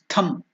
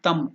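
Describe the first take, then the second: First: The first consonant is said with a strong breath. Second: The first consonant is said without a breath. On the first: The speaker calls it right. "mahaprana, more force" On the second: The speaker calls it wrong. "not thum"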